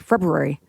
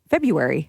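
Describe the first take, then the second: First: The R after the B is pronounced, quickly. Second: The R after the B is dropped. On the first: Some other people say it this way. "They kind of say it quickly. It's like February" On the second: The speaker says it this way. "I ignore the R and I'm just February"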